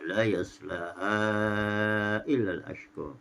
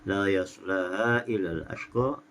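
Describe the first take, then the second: First: The vowel before 'illa' is held for four counts. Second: The vowel before 'illa' is held for two counts. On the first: "empat harakat" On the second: "dibaca dengan dua harakat"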